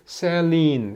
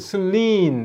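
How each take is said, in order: First: The first vowel is a clear 'e' sound. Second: The first vowel is reduced and barely heard. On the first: The accent mark is respected. The speaker calls it right. "이거는 셀린 이렇게 발음을 하라" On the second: The accent mark is ignored. The speaker calls it wrong. "원래 발음대로 이거는 슬린 이렇게 되는데"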